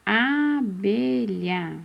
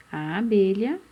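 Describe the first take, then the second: First: Abelha slow, with a long held A; stretched first vowel. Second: Said in the usual way. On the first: Shown as a demonstration. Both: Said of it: "qual aqui começa com a letrinha A".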